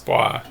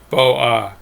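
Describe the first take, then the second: First: The two vowels merge into a single syllable. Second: The two vowels are said as separate syllables. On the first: The speaker calls it right. "It's Bois. It's a rule" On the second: The speaker calls it wrong. "It's never Bo Ah"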